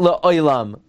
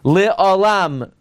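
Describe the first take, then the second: First: The vowel is the diphthong 'oy'. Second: The vowel is a plain 'o'. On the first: The speaker calls it wrong. "not Le Oilam" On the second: The speaker calls it right. "Le Olam, not Le Oilam"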